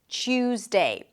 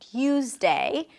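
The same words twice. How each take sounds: First: It begins with a ch sound. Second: It begins with a clear t sound. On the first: "becomes a ch sound, like a T and a sh sound" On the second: "you can say don't you and Tuesday, totally fine"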